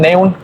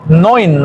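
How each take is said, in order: First: The vowel is read as separate 'e' and 'u'. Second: The vowel is pronounced as one 'oy' sound. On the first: The speaker calls it wrong. "sí se pronunciaría en español Neun" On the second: The speaker calls it right. "en alemán se pronuncia Neun"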